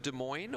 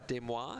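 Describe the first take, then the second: First: It is said with an ordinary American pronunciation. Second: It is said with a French-style pronunciation.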